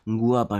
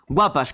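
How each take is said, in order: First: It is said in a leering, creepy way. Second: It is said in a light, friendly way. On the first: It sounds like unwanted desire. The speaker calls it wrong. "me he dado yo miedo diciéndolo también" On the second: It is a harmless compliment. The speaker calls it right. "Si lo dices así, a lo mejor pues no pasa nada"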